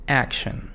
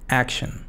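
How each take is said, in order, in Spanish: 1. La última sílaba tiene una vocal reducida, una schwa. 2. La última sílaba tiene una vocal reducida, una schwa.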